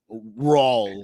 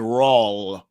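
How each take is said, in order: First: The word ends without any L sound. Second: The word ends with an added L sound. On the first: The speaker calls it right. "there's no L in Raw. It's just Raw" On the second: The speaker calls it wrong. "He said Monday Night Raw"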